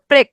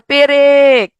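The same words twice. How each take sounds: First: প্রেক as one short syllable; joined consonants. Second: পেরেক loud and drawn out in two syllables; inserted vowel. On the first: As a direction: run প straight into র in প্রেক. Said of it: "একসাথে ছিল". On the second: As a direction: put a clear long vowel between প and র in পেরেক. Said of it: "মাঝখানে একটা এ ধ্বনি আসছে". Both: Shown as a demonstration.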